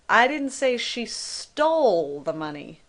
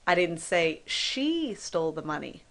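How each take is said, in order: First: The stress is on "stole". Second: The stress is on "she".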